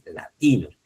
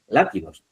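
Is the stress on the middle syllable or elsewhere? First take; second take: middle; elsewhere. First: The stress falls on the middle syllable. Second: The stress falls away from the middle syllable. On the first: The speaker calls it right. "dice latinos" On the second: The speaker calls it wrong. "Ni dice latinos"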